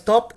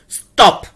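First: The word is said in a low, quiet voice. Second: The word is shouted loudly. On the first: "and in a lower voice" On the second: "The last one, shout at him"

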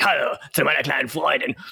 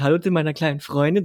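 First: The line is said harshly and aggressively. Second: The line is said softly and romantically. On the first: It sounds like the famous gangster film quote. The speaker calls it right. "du musst das natürlich dann auch schon sagen wie er" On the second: It sounds like an ordinary, gentle remark. The speaker calls it wrong. "so romantisch"

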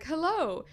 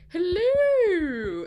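First: It is a plain, ordinary chipper greeting. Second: It is an exaggerated, mocking strange greeting.

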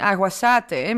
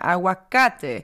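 First: The c is pronounced with an s sound. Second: The c is pronounced with a k sound. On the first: The speaker calls it wrong. "dat is geen C, het is geen aguacate" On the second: The speaker calls it right. "maar aguacate. Een C in combinatie met een A, O of U is een K-klank"

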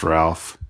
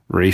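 First: The name is said as 'Ralph'. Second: The name is said as 'Rafe'. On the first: The speaker calls it wrong. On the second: The speaker calls it right.

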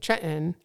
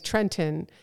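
First: The word is said in a casual local way. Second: The word is said carefully and fully. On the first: This is how locals normally say it. "normally I would say Trenton" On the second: The speaker wants to sound sophisticated. "notice how I'm trying to say Trenton"

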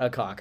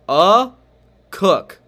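First: The second syllable rhymes with 'rock'. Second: The second syllable rhymes with 'book'. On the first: The speaker calls it wrong. "it's not a cock" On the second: The speaker calls it right. "It is a cook, a cook. That's what it is"

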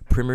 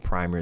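First: It is said in an American English pronunciation. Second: It is said in a British English pronunciation. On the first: "the American English way to say it" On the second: "the English way, the English way, the blimey way"

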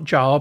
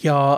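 First: The name begins with a j sound. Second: The name begins with a y sound. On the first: The speaker calls it wrong. "not Jar" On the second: The speaker calls it right. "it's Yar"

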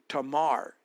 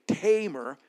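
First: The stress is on the last syllable. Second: The stress is on the first syllable. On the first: This is the Hebrew way of saying it. "this would be pronounced Tamar at the end" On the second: This is the usual English way of saying it. "putting the emphasis on the first syllable"

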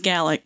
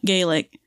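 First: The word is said the Scottish Gaelic way. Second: The word is said a different, non-Scottish way. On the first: The speaker calls it right. "that's Gaelic" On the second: The speaker calls it wrong. "not Gaelic. There is a difference"

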